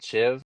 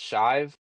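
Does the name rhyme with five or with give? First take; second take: give; five. First: The name rhymes with give. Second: The name rhymes with five. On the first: The speaker calls it wrong. "not Shiv" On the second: The speaker calls it right. "I think it's pronounced Shive"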